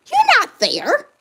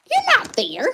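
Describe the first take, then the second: First: Much higher and slower, stretched out; "You're not there" lifted high and drawn out; pitched-up accusation. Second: Said in the usual way. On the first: Real, not acted. Mother confronting the absent father, high slow accusation.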